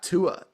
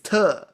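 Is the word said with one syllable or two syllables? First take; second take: two syllables; one syllable. First: The word is drawn out into two syllables. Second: The word is one short, clipped syllable. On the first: The speaker calls it wrong. "It's not Tua" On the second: The speaker calls it right. "It's Tuh"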